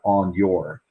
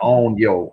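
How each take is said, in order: First: The word your is said with its final r. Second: The word your is said without its final r. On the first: "not on your" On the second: "we say it like that: on yo"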